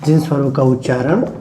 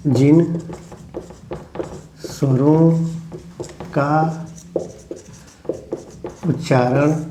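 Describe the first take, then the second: First: Said in the usual way. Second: One word at a time, long pauses; dictation. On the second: Shown as a demonstration. Teacher dictating to the class, each word set apart.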